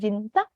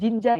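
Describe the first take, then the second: First: The second syllable starts with a tense ch sound. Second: The second syllable starts with a soft j sound. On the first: The speaker calls it right. "cara bacanya ini harus pakai huruf C" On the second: The speaker calls it wrong. "tidak boleh bilang jinja dengan huruf J"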